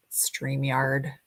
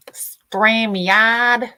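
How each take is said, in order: First: Said in the usual way. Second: Loud, drawn-out "StreamYard"; scolding shout. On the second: Real, not acted. Streamer telling off StreamYard for messing with her, scolding. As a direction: call out the software's name in loud mock reproach.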